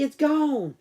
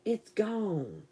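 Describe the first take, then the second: First: Said in the usual way. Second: Quietly settling it down; soft hushed repeat. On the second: Real, not acted. Telling Christy the bug is gone, softly murmured. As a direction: drop to a near-murmur.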